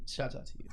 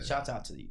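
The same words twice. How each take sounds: First: Breathy whispered echo. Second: Said in the usual way. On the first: Shown as a demonstration. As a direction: repeat it as a whisper. Repeats shout-out, second whispered.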